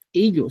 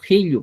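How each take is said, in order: First: "ello" as "illo", without the H; non-Chanca pronunciation. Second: "ello" as "hillu", opening on H; Chanca pronunciation. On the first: Teacher warning what not to say in Chanca, no H. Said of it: "No vas a decir ello". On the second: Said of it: "sino ello vas a decir". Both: Shown as a demonstration.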